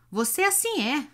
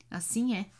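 First: Higher, louder sneering echo; mocking echo. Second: Said in the usual way. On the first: A narrator's reading. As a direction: mimic his words with scorn. Hunchback mocks Iona's phrase.

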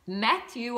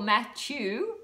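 First: Matthew said slowly as "Math-you"; slow, careful "Math-you" for Matthew; first guess at pronunciation. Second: Matthew said slowly with a "chew" ending; slow, unsure alternative take on Matthew; second guess at pronunciation. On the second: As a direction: try Matthew as "Math-chew". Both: Shown as a demonstration. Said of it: "I don't know how you say it".

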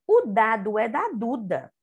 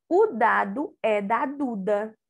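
First: O dado é da Duda read in one smooth flow; reading without stopping. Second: Said in the usual way. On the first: Shown as a demonstration. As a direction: read it straight through, no pauses. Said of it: "a tia Luna vai ler, sem parar". (leitura corrida, sem parar) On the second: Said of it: "D com A".

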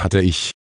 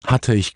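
First: A mild, resigned sigh in the words; understated weary admission. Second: Lightly voiced croaking raven; a hint of a raven's croak echoing back. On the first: Little witch admits her broom is gone, sighing. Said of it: "seufzte die kleine Hexe". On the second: Raven echoes the little witch in disbelief, light croak. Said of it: "krächzte Abraxas". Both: A narrator's reading.

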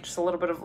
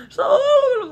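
First: Said in the usual way. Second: Tiny squeaky voice, very high and louder; playful high squeal on the repeat; high-pitched. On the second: Real, not acted. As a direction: squeeze it up high to show how little. Repeats it squeezed high for emphasis.

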